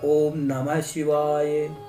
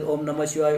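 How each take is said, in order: First: It is said slowly. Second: It is said fast.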